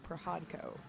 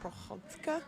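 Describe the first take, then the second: First: The name is said with American pronunciation. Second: The name is said with Ukrainian pronunciation. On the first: This is the adapted form of the name. "in American version is Prohodko" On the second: This is the original form of the name. "it's Ukrainian and it's actually pronounced Prohodka"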